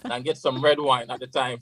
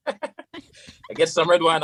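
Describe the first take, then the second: First: Said in the usual way. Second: Slow and higher, laughing through the words. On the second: Real, not acted. Retelling the red wine story to the host, laughing. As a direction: laugh it out as you repeat it. Laughs while repeating line.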